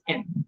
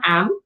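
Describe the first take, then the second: First: The vowel is said with the mouth open narrow. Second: The vowel is said with the mouth open wide. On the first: The speaker calls it right. "Don't open your mouth so wide" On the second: The speaker calls it wrong. "It's not am"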